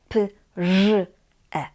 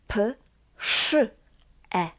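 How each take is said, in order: First: The consonant after p is a voiced zh sound. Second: The consonant after p is a voiceless sh sound. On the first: The speaker calls it wrong. "not p, ż, e" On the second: The speaker calls it right. "We say p, sz, e, praszam"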